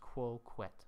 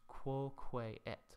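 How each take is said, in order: First: The two words are run together as one. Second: The two words are said separately. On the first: "it's going to get counted as quoquet" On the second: "another example of this elision here is quoque-et"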